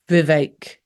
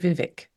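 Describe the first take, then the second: First: The last syllable rhymes with 'ache'. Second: The last syllable does not rhyme with 'ache'. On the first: Someone else says the name this way. "he pronounced it Vivek, like ache" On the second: This is the speaker's own way of saying the name. "I would say Vivek"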